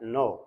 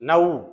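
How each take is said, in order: First: The vowel is a plain 'oh' sound. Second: The vowel glides like 'ow' in 'now'. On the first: The speaker calls it right. "சொல்லும்போது நோ அப்படி சொல்லுவோம்" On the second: The speaker calls it wrong. "நவ் அப்படி சொல்லாம"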